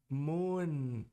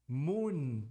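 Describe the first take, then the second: The two takes are said the same way.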